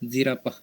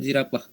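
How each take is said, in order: The two takes are said the same way.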